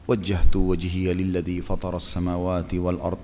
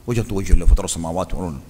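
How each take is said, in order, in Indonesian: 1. Dibaca dengan pelan dan tenang. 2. Dibaca dengan cepat dan terburu-buru. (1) "Sudah nafas tenang, ... tenang"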